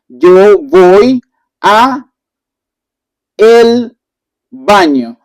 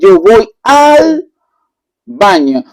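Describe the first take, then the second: First: The words 'a' and 'el' are said separately. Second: The words 'a' and 'el' merge into 'al'. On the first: The speaker calls it wrong. "it sounds a little bit bad" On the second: The speaker calls it right. "we are going to say yo voy al baño"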